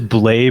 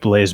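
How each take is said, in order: First: The name ends on a vowel, no z sound. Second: The name ends with a z sound. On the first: This is the name's real pronunciation. "it is Blay" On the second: This is the pronunciation the owner prefers. "but I like Blaze better"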